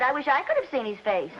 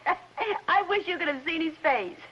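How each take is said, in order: First: Second "I" picked out as an afterthought; wry correction, weight on the second "I"; stress on I. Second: "you" picked out while tickled; slow, amused line with weight on "you"; stress on YOU. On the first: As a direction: lean on the "I" before "could". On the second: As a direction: lean lightly on "you", drawing the line out slowly. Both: Acted. Joke turns on swapped pronoun.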